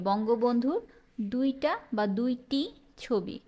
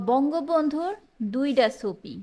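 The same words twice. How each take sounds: First: দুইটি with a clear "t"; standard form. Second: দুইটা with a "d" ending, ছবি with an "s" onset; regional dialect. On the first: Teacher offers the standard version, standard pronunciation. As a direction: say ছবি with a "chh" onset. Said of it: "কি হবে?". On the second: Teacher reads out a regional phrase, dialect pronunciation. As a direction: say ছবি as "sobi", dialect style. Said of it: "আঞ্চলিক বাক্য". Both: Shown as a demonstration.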